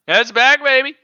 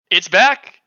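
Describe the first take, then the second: First: Higher, louder, hyped; excited. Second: Excited. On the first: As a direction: pump it up, really celebrate. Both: Real, not acted. Excited news announcement.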